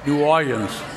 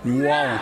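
First: It is said with an uptown local pronunciation. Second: It is said with an ordinary local pronunciation. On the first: "Or if you're from uptown" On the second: "What is it?"

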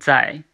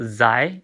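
First: The word begins with a ds sound. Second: The word begins with a buzzing z sound. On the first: The speaker calls it right. "So it's similar to DS in English. ... it's Zai" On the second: The speaker calls it wrong. "So it's not Zai"

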